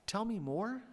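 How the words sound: It rises at the end, like a question.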